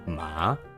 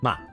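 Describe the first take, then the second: First: The pitch goes down and then up. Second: The pitch is hard with an abrupt stop. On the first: "you're going down and up" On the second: "it's like a hard. ... just hard stop"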